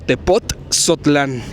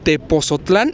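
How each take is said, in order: First: It is said with a t before the z. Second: It is said without a t before the z. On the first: "Esa T no la habíamos estado pronunciando" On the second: "Esa T no la habíamos estado pronunciando"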